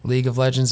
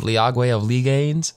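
First: The name is pronounced in the normal way. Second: The name is pronounced with garbled, distorted sounds. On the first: The speaker calls it right. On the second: The speaker calls it wrong.

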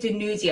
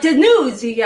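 First: The name is said casually and flatly. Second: The name is said with exaggerated, dramatic flair. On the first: The speaker calls it wrong. "you can't just like casually say DeNuzio" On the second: The speaker calls it right. "You have to be like DeNuzio"

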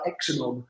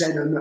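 First: The name starts with an 'eks' sound. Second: The name starts with a 'z' sound. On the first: The speaker calls it wrong. "no one could pronounce it. It was like Exenon" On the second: The speaker calls it right. "So I changed it to a Z. So it's just Zenon"

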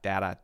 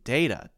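First: Both syllables use the same vowel sound. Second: A long A vowel is followed by a short A. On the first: The speaker calls it wrong. "data is using the same sound twice. It's not great" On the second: The speaker calls it right. "having the long A sound followed by the short A sound"

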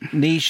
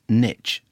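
First: The word rhymes with quiche. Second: The word rhymes with itch. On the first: The speaker calls it right. "the correct pronunciation as in niche and quiche" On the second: The speaker calls it wrong. "as in itch"

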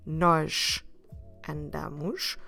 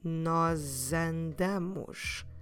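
First: The two words are said separately, kept apart. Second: The two words run together with a z sound. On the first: "instead of having the two words apart" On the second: "run these two together with a Z sound in the middle"

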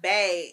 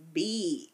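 First: The syllable is said with the vowel of 'bay'. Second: The syllable is said with the vowel of 'bee'. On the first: The speaker calls it wrong. "it's not Bay" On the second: The speaker calls it right. "It's B"

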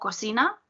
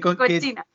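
First: The middle consonant is a hissing sound. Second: The middle consonant is a 'ch' sound. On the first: It means the room for cooking. The speaker calls it right. "Pero en este caso no, sería cocina" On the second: It means a dirty person. The speaker calls it wrong. "suelen pronunciarlo como cochina"

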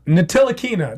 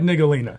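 First: The name is said with 'tila' in the middle. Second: The name is said with 'co' in the middle. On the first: The speaker calls it right. "There we go" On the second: The speaker calls it wrong. "that's not his last name"

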